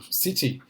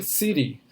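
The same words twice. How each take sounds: First: City with a crisp clear t, siti; British t in city. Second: City said siri, the t a quick tap; American flapped t. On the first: Teacher contrasting British city for students, crisp clear t. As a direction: give city a clean British t. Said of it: "que é o britânico". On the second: Teacher contrasting American city for students, t tapped like r. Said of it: "pro inglês americano". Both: Shown as a demonstration.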